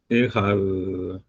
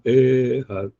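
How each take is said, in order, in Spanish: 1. La primera vocal es corta y rápida. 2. La primera vocal se alarga, es larga. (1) "la primera ... no se prolonga" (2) "pero no Ehad"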